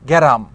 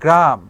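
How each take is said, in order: First: A vowel splits the opening cluster into ge-ram. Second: The word opens with a tight gr cluster. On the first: It is the regional form of the word. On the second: It is the standard form of the word.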